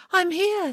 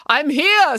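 First: Echoing call. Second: Raised, high call. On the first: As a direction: repeat it back high and light. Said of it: "said Echo". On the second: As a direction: call out your position. Calling out through the woods. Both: A narrator's reading.

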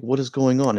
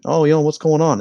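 First: Said in the usual way. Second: Higher-pitched mock Swedish accent; put-on Swedish accent, pitched up. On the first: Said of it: "He's like". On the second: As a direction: imitate a baffled Swede with a lilting accent. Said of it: "in a Swedish accent".

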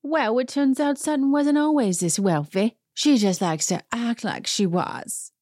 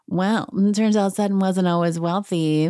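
First: Put-on Dorit's accent. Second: Said in the usual way. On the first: Host doing Dorit's accent for her dig at Sutton. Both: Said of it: "let me do her accent".

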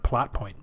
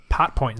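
First: Said in the usual way. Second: "pot point" with the L dropped; mispronounced plot point. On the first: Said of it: "instead of plot point". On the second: Retold or imitated. Correcting the co-host's slip, "pot point" without the L. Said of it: "You said pot point instead of plot point".

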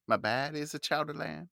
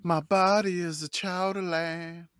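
First: Boston accent, with "My baddie" said for "my body" and the o opened to a flat a. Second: Slow, higher crooned line in a soulful pop singer's style. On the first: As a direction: sing "baddie" the Boston way, dropping the crooner polish. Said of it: "okay, that's your accent". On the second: Pretend. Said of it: "I'm trying to do the [name] thing".

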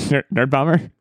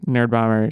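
First: A squeaky break while calling "Nerd Bomber"; voice crack. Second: Said in the usual way. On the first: Real, not acted. Host's voice cracks naming co-host.

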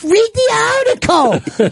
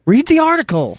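First: High, slow mock snap. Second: Sharp snap. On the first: Bobby mocking the producer's snap, high and slow. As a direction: parody his snappy tone. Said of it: "like, snap, out of the gate". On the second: Real, not acted. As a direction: bite his head off. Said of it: "You're the most angry producer".

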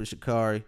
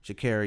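First: Sha'Carri said as sha-CAR-ee; mistaken pronunciation. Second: Sha'Carri said as sha-CARRY; corrected pronunciation. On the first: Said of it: "Sha'Carri, excuse me". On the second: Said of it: "excuse me". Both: Real, not acted.

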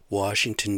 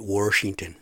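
First: Said in the usual way. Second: Washington said with an r, Warshington. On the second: Shown as a demonstration. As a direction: slip an r into Washington, wahr-shington.

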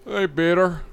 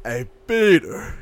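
First: Lightly voiced Joe impression; a hint of the cartoon neighbor; Joe Swanson voice. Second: Slow, lightly voiced Joe; Joe Swanson voice. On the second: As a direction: draw out a hint of Joe. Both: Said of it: "do a really good Joe".

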